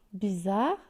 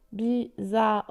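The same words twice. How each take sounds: First: Said in the usual way. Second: "Bizarre" split into bi-za-rre; three separate beats on "Bizarre", sounding the final e; syllable by syllable. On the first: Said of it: "Combien de syllabes". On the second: Shown as a demonstration. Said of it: "trois syllabes". (« Bizarre » découpé en trois syllabes, bi-za-rre)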